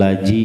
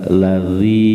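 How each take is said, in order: First: The middle consonant is a 'j' sound. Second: The middle consonant is a 'dh' sound. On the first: The speaker calls it wrong. "bukan laji" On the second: The speaker calls it right. "za itu ujung lidah"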